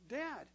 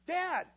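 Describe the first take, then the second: First: The word is said at a normal, softer volume. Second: The word is said loudly and forcefully. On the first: A first quiet attempt to get attention. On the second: A repeated call because the first went unnoticed.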